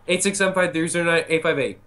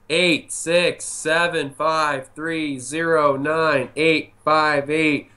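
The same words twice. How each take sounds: First: It is said at a quick pace. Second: It is said at a slower pace.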